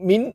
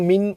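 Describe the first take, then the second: The two takes are said the same way.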